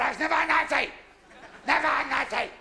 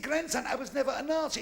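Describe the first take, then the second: First: Higher, louder insistent denial; a hammed-up indignant old granddad. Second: Said in the usual way. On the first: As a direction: protest it hotly.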